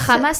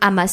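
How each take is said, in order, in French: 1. Le premier son est un H aspiré. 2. Le premier son n'a pas de H aspiré. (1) "c'est en arabe, en fait. Le H, il est aspiré" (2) "je peux dire Hamas, si tu veux"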